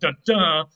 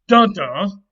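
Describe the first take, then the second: First: The stress is on the second syllable. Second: The stress is on the first syllable. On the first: The speaker calls it right. "with the stress on the second syllable" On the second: The speaker calls it wrong. "with the stress on the first syllable"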